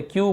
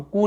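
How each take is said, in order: First: "क्यू" with a y glide before ऊ; right kyu. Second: "कू" with a plain ऊ and no y glide; wrong koo. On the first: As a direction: say "क्यू" like queue. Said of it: "क्यू बोल रहे हैं". (सही उच्चारण "क्यू") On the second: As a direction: say "कू" like coo, not queue. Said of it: "हम कू नहीं बोल रहे". (गलत उच्चारण "कू") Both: Shown as a demonstration.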